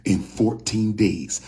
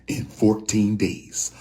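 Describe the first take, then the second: No difference in how they are said.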